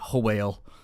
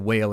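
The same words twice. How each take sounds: First: It starts with a breathy HW sound. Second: It starts with a plain W sound. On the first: The speaker calls it right. "make the H sound in front" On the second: The speaker calls it wrong. "I said whale"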